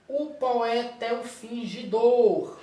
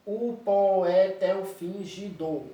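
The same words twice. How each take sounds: First: "O poeta é um fingidor" said slowly in metric syllables, with adjacent vowels run together into single beats; slow metric scansion of "O poeta é um fingidor"; scanned in metric syllables. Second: "O poeta é um fingidor." said slowly with every grammatical syllable pulled apart, po-e-ta kept as three separate beats; slow grammatical-syllable reading of "O poeta é um fingidor."; split into grammatical syllables.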